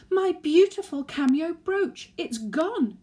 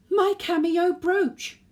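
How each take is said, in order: First: High, loud, near-tearful cry; tearful wail. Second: High, loud, drawn-out shriek of alarm; sudden scream. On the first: Granny lamenting her lost brooch to the family, loud tearful wail. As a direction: wail over the lost brooch, eyes welling. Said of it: "Tears welled in her eyes". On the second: Granny discovering her brooch is gone, screaming. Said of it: "let out a sudden scream". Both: Acted.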